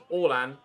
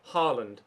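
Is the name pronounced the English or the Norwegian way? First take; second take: Norwegian; English. First: The name is said the Norwegian way. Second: The name is said the English way. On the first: The speaker calls it right. "in Norwegian, it is pronounced Orlan" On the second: The speaker calls it wrong. "not Haaland"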